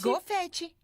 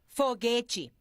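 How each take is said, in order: First: The word starts with a g sound. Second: The word starts with an f sound. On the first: The speaker calls it wrong. "não se diz confete" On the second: The speaker calls it right. "se diz foguete"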